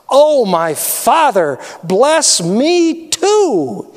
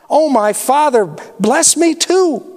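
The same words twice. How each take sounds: First: Slow, drawn-out plea rising higher on bless me too; begging. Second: Much higher, breaking plea on bless me too; pleading cry. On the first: Esau begs his father for a blessing, slow pleading cry. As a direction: stretch the words out as if begging on your knees. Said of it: "he begged". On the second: Esau pleads again before breaking down, high tearful cry. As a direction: cry it out as he is about to weep. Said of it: "Esau pleaded". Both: Acted.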